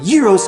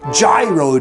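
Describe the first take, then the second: First: The word rhymes with heroes. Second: The word does not rhyme with heroes. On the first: This is the way that fits Greece. The speaker calls it wrong. "I know a lot of you out there pronounce them gyros, and I think it's ridiculous" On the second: This is the speaker's own American way of saying it. The speaker calls it right. "what I call Gyro Day"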